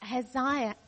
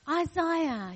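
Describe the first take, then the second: First: The first syllable does not sound like 'eye'. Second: The first syllable sounds like 'eye'. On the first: The speaker calls it wrong. "I said it wrong" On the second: The speaker calls it right. "remember, I, Isaiah"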